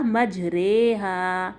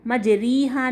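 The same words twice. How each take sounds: First: مجریہا as "majrayhaa"; very slow, open e in مجریہا; correct imala reading. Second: مجریہا as "majreehaa"; wrong "ree" reading. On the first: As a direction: slowly draw out a long "ray" in مجریہا. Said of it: "یہ ہوگا مجریہا". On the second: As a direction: say مجریہا with a long ee in the middle. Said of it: "مجریہا نہیں ہوگا یہ". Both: Shown as a demonstration.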